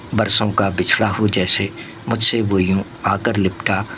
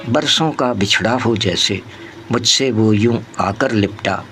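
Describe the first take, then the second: Both takes have the same delivery.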